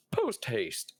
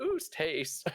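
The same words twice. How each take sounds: First: Light goose honk. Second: Higher goose honk. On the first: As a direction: honk it with a laugh. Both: Acted. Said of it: "My goose voice is back".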